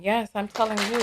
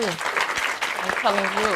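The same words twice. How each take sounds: First: Said in the usual way. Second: I'm telling you drawn out slowly and low; slow, knowing repeat. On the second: Real, not acted. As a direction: let the words sink in slowly. Repeats the agreement slower.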